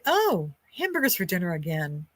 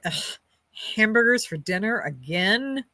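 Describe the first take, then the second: First: It sounds pleased and happy. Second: It sounds annoyed and fed up.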